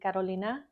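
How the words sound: The name is said with Spanish pronunciation.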